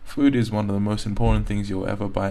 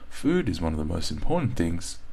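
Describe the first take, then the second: First: There is no pause after 'things'. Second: There is a pause after 'things'. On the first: The speaker calls it wrong. "if you don't pause here, what's going to happen is you're going to be reading it like this" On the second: The speaker calls it right. "Pause. And because we're pausing here"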